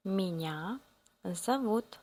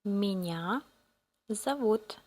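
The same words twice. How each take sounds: The two takes are said the same way.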